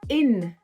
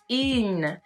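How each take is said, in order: First: The vowel is short. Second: The vowel is drawn out long. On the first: The speaker calls it right. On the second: The speaker calls it wrong.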